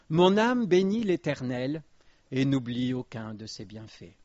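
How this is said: It is said as a flat statement of fact. The soul already blesses God as a matter of fact. The speaker calls it wrong. "On peut le lire comme ça. C'est un fait"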